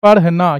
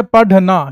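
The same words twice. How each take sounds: First: "पढ़ना" as parh-na, with a breathy flap; flapped ढ़. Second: "पढ़ना" as padh-na, with a hard retroflex stop; slow, firm dh in "पढ़ना". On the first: Teacher reading out the correctly spelt word, "पढ़ना" with flapped rh. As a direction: flick the tongue lightly in "पढ़ना". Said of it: "तो क्या बन जाएगा ये". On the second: Teacher contrasting the misspelt word for pupils, "पढ़ना" with hard dh. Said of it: "और ये है पढ़ना". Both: Shown as a demonstration.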